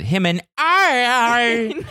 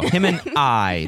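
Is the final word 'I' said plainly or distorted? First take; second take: distorted; plain. First: The word 'I' is stretched and distorted. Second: The word 'I' is said plainly and normally. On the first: The speaker calls it wrong. "how she pronounces it" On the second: The speaker calls it right. "this is how you pronounce that"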